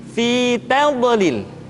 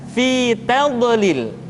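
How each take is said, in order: The two takes are said the same way.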